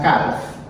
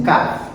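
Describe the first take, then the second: First: Calf with the l heard before f; sounded L. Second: Calf said as "kaf", no l; silent L. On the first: Teacher shows students the mistake, calf with sounded L. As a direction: say calf as "kalf". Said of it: "Elle l'a pas prononcé". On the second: Teacher models it for students, calf with silent L. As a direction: drop the l in calf. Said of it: "This is a silent L". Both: Shown as a demonstration.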